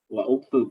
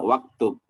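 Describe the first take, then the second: First: The words are separate, with the glottal vowel kept. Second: The words are joined, with the vowel dropped. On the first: The speaker calls it wrong. "wa uktub harusnya kan, tapi nggak di nggak disebutkan" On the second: The speaker calls it right. "tapi dibacanya waktub"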